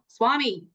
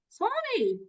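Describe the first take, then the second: First: The name is said in a harsh, stern tone. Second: The name is said in a warm, friendly tone. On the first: The speaker calls it wrong. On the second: The speaker calls it right.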